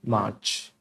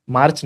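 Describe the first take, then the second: First: मार्च as "maach", no r; silent r. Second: मार्च with the r pronounced; wrong sounded r. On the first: Teacher correcting the class, silent r. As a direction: say मार्च low, long aa, r dropped. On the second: Teacher rejecting a wrong form, sounded r. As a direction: say मार्च as "maarch", tapping the r. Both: Shown as a demonstration. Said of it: "मार्च नहीं".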